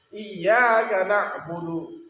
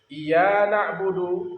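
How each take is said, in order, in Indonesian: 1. Bunyi y ditahan panjang, jadi ganda. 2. Bunyi y pendek, jadi tunggal.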